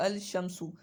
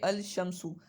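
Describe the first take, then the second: First: The l sound is pronounced before the sh. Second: The same.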